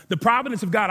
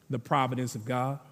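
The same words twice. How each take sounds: First: Stronger restatement. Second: Providence of God said low and soft. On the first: Preacher repeating the key phrase to the church, now proclaiming it. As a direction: lift and proclaim providence of God. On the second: Preacher repeating the key phrase to the church, first soft and low. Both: Shown as a demonstration.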